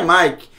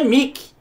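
First: "Mike" with an ai vowel; English pronunciation. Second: "Mickey" as "Mii-ki", plain i; Portuguese reading. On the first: Teacher naming the reading Portuguese would not use, ai vowel. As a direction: say "Mike" as "maik". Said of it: "no português isso aqui não é". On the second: Teacher giving the Portuguese reading, plain i vowel. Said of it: "isso aqui é". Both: Shown as a demonstration.

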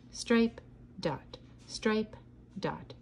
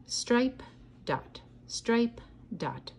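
No difference in how they are said.

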